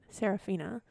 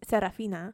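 First: The name is said with an English pronunciation. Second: The name is said with a Spanish pronunciation. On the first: "instead of" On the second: "I like how you say it in Spanish, which is just with inflection"

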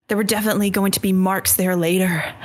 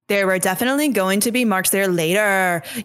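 First: It is read in a plain voice. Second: It is read in a put-on TikToker voice.

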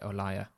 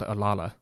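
First: The last consonant is a Y sound. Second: The last consonant is an L sound. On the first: The speaker calls it right. "you're actually supposed to pronounce it Olaya" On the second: The speaker calls it wrong. "I always thought it was called Olala"

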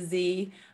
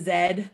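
First: The letter is said as zee. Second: The letter is said as zed.

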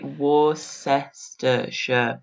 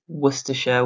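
First: The syllables are said separately and fully. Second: The syllables are linked together and reduced. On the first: "so it would be Worcestershire" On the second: "we do it as Worcestershire. We kind of do that, that linking the syllables together"

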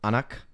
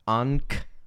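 First: It is said quickly with two syllables. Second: It is said as one clipped syllable. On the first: "it's just like pronounced fast. So Anak" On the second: "So it's Ankh, kind of"

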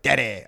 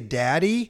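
First: It is said in a put-on, playful voice. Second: It is said in a plain, ordinary voice. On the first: It comes across as a friendly joke. The speaker calls it right. "But if you're like, daddy, I'm like, I get it" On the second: It sounds weird coming from a stranger. The speaker calls it wrong. "if you just say daddy, it's weird"

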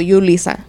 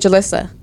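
First: The name starts with a Y sound. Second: The name starts without a Y sound. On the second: "when people ask me, how do you say your name? I say Jalissa"

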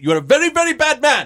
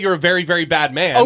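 First: It is said in the character's put-on accent. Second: It is said in the speaker's plain accent.

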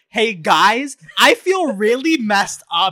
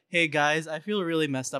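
First: Every word is carefully over-enunciated, like a child. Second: The words are spoken in a normal, relaxed way. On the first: "I had to over enunciate" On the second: "instead of saying like"

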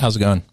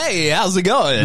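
First: The greeting sounds flat and unenthusiastic. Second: The greeting sounds lively and enthusiastic.

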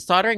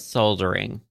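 First: It is said with an American pronunciation. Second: It is said with a British pronunciation.

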